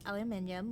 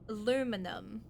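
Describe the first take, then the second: First: The word is said the non-American way. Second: The word is said the American way. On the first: "Not aluminium for you guys" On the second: "how do Americans say it? It's it's aluminum"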